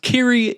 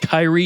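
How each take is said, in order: First: The name is pronounced 'Kiri'. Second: The name is pronounced 'Kyrie'. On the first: The speaker calls it right. "it's pronounced Kiri" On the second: The speaker calls it wrong. "Years of people pronouncing it Kyrie. You are wrong"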